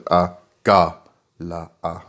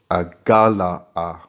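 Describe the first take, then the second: First: Agala'a said very slowly with Ga hit hard; Agala'a drawn out, Ga emphasized; stress on the Ga. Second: Agala'a with the second syllable Ga slow and weighted; Agala'a drawn out, Ga stressed. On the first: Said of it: "you need to emphasize the Ga". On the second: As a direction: lean hard on the Ga in Agala'a. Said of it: "place a strong emphasis on the second syllable". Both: Shown as a demonstration.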